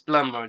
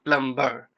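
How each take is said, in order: First: No B sound is pronounced in the middle. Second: A B sound is pronounced in the middle. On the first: The speaker calls it right. "There isn't any B sound" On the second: The speaker calls it wrong. "If you look at its spelling and try to pronounce the word, you will pronounce this word like plumber"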